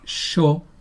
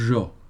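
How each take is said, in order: First: The first consonant is voiceless, like 'sh'. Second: The first consonant is voiced, with buzzing cords. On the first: "Una es sorda" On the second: "la otra es sonora"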